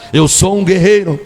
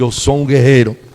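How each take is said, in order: First: It is said louder and more forcefully. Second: It is said at normal loudness.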